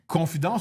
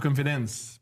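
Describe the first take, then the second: First: The word is pronounced with a French accent. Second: The word is pronounced with an English accent. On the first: It means a secret told in trust. "la confidence, c'est plus cochon secret" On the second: It means self-confidence. "mais la confiance en soi, c'est différent"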